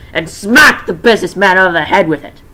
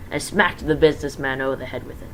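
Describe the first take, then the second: First: Smacked punched much louder; loud dramatic reread. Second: Said in the usual way. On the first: Shown as a demonstration. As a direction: retell the hit with loud force.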